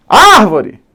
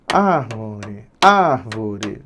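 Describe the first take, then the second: First: High, loud call punching ÁR; shouted at the gate. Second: Low, soft, drawn-out syllables; quiet tapping-out. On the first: Teacher warned about volume, shouting at the gate. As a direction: yell "árvore" as if calling someone outside. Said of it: "O famoso grita no portão". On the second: Teacher showing the pen-tapping method, quietly sounding it out. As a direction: say it under the voice, feeling each beat. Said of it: "era batendo a canetinha". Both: Shown as a demonstration.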